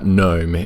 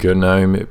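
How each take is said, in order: First: The word starts with an N sound. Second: The word starts with a hard G sound. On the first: "no one should kill you for pronouncing it uh, GNOME either" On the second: "with the G at the front"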